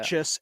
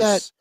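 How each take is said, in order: First: The first vowel sounds like the vowel in 'et'. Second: The first vowel sounds like the vowel in 'at'. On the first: This is the name's actual pronunciation. The speaker calls it right. "It's really" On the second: This is how others have been saying it. The speaker calls it wrong. "So they've been calling him"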